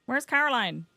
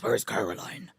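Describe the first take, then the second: First: Said in the usual way. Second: Very low, rough Batman impression. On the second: Swapping in a game character's name, low Batman voice. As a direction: drop right down into Batman. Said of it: "Amazing Batman voice".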